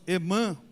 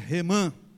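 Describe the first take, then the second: First: The name starts with a vowel sound. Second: The name starts with an R sound. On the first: The speaker calls it wrong. "nós muitas vezes falamos Emã" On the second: The speaker calls it right. "ela tem a fonética de R, então é Remã"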